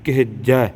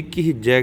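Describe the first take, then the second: First: ਕਿਹਜੈ with a short middle vowel, "ke-hej-jai"; ਕਿਹਜੈ said "kehejjai", leaning into the j; correct pronunciation. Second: ਕਿਹਜੈ with an "ee" in the middle, "ki-hee-jai"; ਕਿਹਜੈ said as "kihijai"; common misreading. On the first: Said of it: "ਹਾਹੇ ਨੂੰ ਸਿਹਾਰੀ ਦਾ ਉਚਾਰਨ". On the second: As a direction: put an i vowel after the h in ਕਿਹਜੈ. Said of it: "ਕਈ ਕਿਹਜੈ ਕਹਿ ਜਾਂਦੇ ਆ". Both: Shown as a demonstration.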